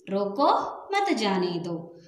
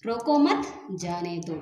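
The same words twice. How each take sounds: First: रोको set apart by a clear pause before मत जाने दो; pause after रोको. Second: रोको मत raised and louder, pause, then lower जाने दो; pause after मत. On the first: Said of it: "थोड़ा सा रुकेंगे". (रोको पर रुककर फिर मत जाने दो) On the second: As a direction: join रोको मत, break, drop on जाने दो. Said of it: "अगले स्थान पर या दूसरे स्थान पर लगाएंगे". (मत के बाद विराम, फिर जाने दो) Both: Shown as a demonstration.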